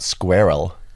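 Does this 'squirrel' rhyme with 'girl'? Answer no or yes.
no. The word does not rhyme with girl. It is the fuller British way. The speaker calls it right.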